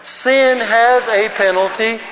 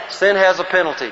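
First: Slow, higher, measured recitation; group recitation lead. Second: Said in the usual way. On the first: Shown as a demonstration. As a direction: declaim it slowly so all can join in. Leads group reciting in unison.

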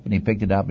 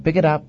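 First: Said in the usual way. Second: Raised-pitch instruction, quickly given; lightly acted command to Moses; God's command. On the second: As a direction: give the order in role, pitched up. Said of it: "Then the Lord said to him".

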